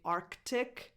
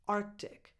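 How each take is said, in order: First: The C before the T is fully sounded. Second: The C before the T is weak, almost a glottal stop. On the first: "you can pronounce the C and say Arctic" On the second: "somewhere in the middle ... it doesn't come out strong. Almost like a glottal stop"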